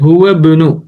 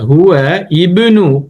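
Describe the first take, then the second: First: The words are joined, initial vowel dropped. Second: The two words are separate, initial vowel pronounced. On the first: "சேர்த்து வாசிக்கல எப்படி?" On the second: "ஹுவ இபுனு கொண்டு வாசிக்கலாம்"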